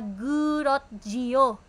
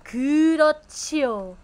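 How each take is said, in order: First: The middle consonant is a plain j sound. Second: The middle consonant is an aspirated ch sound. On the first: The speaker calls it wrong. "hindi po siya 그렇지요" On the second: The speaker calls it right. "the jiyut becomes ch"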